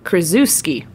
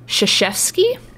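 First: The name is sounded out letter by letter. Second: The name is not sounded out from spelling. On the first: The speaker calls it wrong. "You do not pronounce it phonetically in the English, you know, way" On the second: The speaker calls it right. "It is pronounced Krzyzewski"

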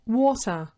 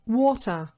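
No difference in how they are said.

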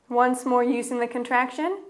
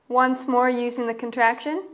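Both takes have the same delivery.

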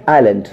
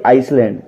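First: No s sound is pronounced before the l. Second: An s sound is pronounced before the l. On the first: The speaker calls it right. "तो पढ़ेंगे आइलैंड" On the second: The speaker calls it wrong. "दोस्तों वो आइसलैंड नहीं होगा"

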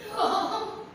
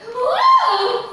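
First: It is said in a sad way. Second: It is said in an excited way.

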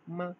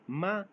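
First: The syllable is short and light, without set pitch. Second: The syllable has a rising pitch. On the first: "इसको neutral tone बोलते हैं माँ" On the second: "हम को बोलते हैं मा"

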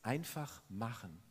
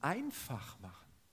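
First: The stress falls on the second word. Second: The stress falls on the first word. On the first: Just do it without hesitating. "mach nicht lange rum" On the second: Make it simple for yourself. "Wie kann ich mir es denn einfach machen?"

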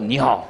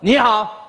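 First: The pitch goes down low. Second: The pitch goes up high.

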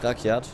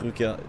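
First: The first vowel is an open 'a'. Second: The first vowel is a rounded 'ü'. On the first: The speaker calls it right. "Rakjat, nicht Rückjat" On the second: The speaker calls it wrong. "nicht Rückjat"

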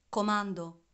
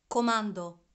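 Both takes have the same delivery.

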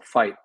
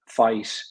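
First: The final T is a glottal stop. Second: The final T has a hissy release. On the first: "we have to put usually a glottal stop on that" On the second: "sometimes we have like a sibilant T"

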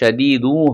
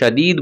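First: The word ends with an added vowel u. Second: The word ends on the consonant d. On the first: The reading continues into the next word. "মিলিয়ে পড়লে হবে শাদীদু হবে" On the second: The reading stops at this word. "তাহলে শাদীদ বলবো আমরা"

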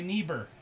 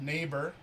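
First: The first vowel is a long E sound. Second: The first vowel is a long A sound. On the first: "And then try it with the long E sound" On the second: "try it with the long A sound"

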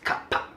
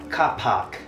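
First: It is said in a crisp Singaporean accent. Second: It is said in a British accent.

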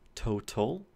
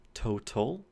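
First: The middle consonant is a clear T. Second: The same.

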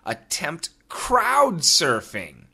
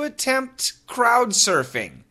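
First: It is read at a slower pace. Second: It is read at a normal, quicker pace.

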